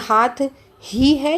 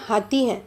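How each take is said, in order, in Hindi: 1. हाथ के बाद एक छोटा सा विराम है। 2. अक्षर बिना किसी विराम के एक साथ जुड़े हुए हैं।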